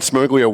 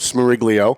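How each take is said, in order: First: The name drops the middle 'ri' syllable. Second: The name keeps the middle 'ri' syllable. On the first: The speaker calls it wrong. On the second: The speaker calls it right.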